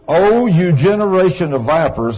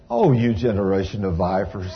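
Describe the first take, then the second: First: It is said hotly and angrily. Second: It is said gently and sweetly.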